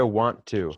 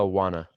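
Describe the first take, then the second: First: It is said as two full separate words. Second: It is reduced and run together into one word. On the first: "quando você quer dizer want to" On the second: "Você só fala wanna"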